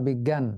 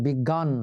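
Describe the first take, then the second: First: "বিজ্ঞান" said biggyan, fronted vowel; biggyan pronunciation. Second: "বিজ্ঞান" said biggan, open a; biggan pronunciation. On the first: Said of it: "দুটো উচ্চারণই". ("বিজ্ঞান" উচ্চারণ বিগ্গ্যান) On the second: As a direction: say "বিজ্ঞান" with gg and a plain aa. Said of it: "এই জন্য উচ্চারিত হয়". ("বিজ্ঞান" উচ্চারণ বিগ্গান) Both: Shown as a demonstration.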